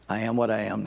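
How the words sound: It is said in a modest, humble way. The speaker credits grace for who he has become. The speaker calls it right. "I think he had humility"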